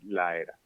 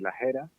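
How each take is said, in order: First: The final s is dropped with no aspiration. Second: The final s is kept as an aspiration. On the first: This is a more relaxed pronunciation. "se puede perder la aspiración totalmente y decir la era" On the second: This is a more careful pronunciation. "podemos decir las eras"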